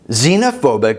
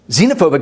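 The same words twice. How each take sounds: First: It is said at normal speed. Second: It is said fast.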